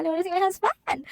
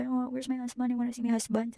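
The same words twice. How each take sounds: First: Higher, tearful pleading for her husband; tearful plea. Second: Said in the usual way. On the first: Retold or imitated. Patient in recovery room begging nurse for husband, tearful higher plea. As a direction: beg through tears, voice pitched up. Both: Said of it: "umiiyak ako".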